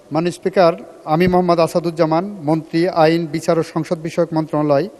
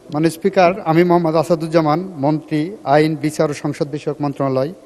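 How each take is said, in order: The two takes are said the same way.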